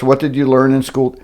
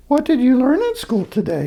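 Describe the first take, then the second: First: Said in the usual way. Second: Much higher, sing-song mother; pitched-up mother asking; mother's voice. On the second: Acted. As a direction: ask it like a fond mom. Mother's voice retakes the question.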